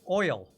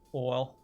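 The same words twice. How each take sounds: First: It is said in a plain everyday accent. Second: It is said in a Southern American accent.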